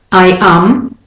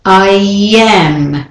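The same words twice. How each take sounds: First: I am with a break between the vowels; separated words. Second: I am glided as I-yyam; intrusive y. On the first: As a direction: keep I am apart, no y glide. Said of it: "So it's not I am". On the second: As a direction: join I am with a long y. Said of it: "you've got those two vowels". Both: Shown as a demonstration.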